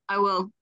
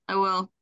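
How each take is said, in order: No difference in how they are said.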